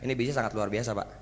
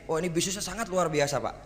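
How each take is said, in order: First: It is said in a flat, unexcited voice. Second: It is said with lively, enthusiastic energy. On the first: The claim sounds unconvincing. The speaker calls it wrong. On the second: The business is presented as truly exciting. The speaker calls it right.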